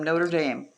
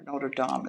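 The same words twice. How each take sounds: First: It is pronounced the English way. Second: It is pronounced the French way.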